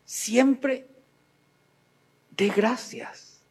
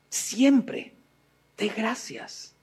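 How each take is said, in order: First: Slow, deliberate "Siempre dé gracias"; slow exhortation. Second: "siempre dé gracias" fading to a soft hush; hushed echo. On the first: Preacher urging listeners, slow and deliberate. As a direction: lay out each word of "Siempre dé gracias". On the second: Preacher to listeners, repeating softly as an echo. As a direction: let "dé gracias" drop almost to a breath. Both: Shown as a demonstration. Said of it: "repeated exhortation".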